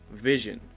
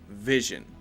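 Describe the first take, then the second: No difference in how they are said.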